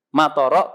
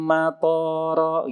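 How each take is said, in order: First: The second syllable's vowel is kept short. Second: The second syllable's vowel is held long. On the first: It means rain. The speaker calls it right. "to-nya pendek" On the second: It means an airport. The speaker calls it wrong. "To-nya dibaca panjang"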